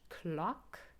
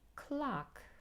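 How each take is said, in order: First: The vowel is short and rounded. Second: The vowel is long and more open. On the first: "British English" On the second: "American English, clock. It's a bit more open. And it's also long"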